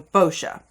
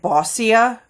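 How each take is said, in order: First: The middle consonant is a 'sh' sound. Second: The middle consonant is not a 'sh' sound. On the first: The speaker calls it right. "the S C I A is Sha" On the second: The speaker calls it wrong. "I thought it was like Bossia"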